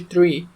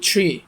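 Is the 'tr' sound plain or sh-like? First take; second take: plain; sh-like. First: The t and r are said plainly together. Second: A light sh-like sound joins the t and r. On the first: The speaker calls it wrong. "ما تقولش تري" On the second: The speaker calls it right. "في صوت شين خفيفه كده بين التي والار"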